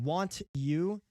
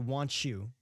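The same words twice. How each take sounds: First: The t and y sounds stay separate. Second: The t and y blend into a ch sound. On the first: "instead of saying want you" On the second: "like with a t- with a ch"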